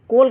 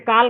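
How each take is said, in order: First: The vowel is a rounded 'oh' sound. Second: The vowel is an open 'aa' sound. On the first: "कोल का भी sound नहीं आ रहा है, ये भी गलत है" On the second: "काल का साउंड नहीं आ रहा है"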